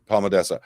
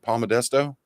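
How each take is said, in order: First: The name ends with a 'dessa' sound. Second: The name ends with a 'desto' sound. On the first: The speaker calls it right. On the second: The speaker calls it wrong.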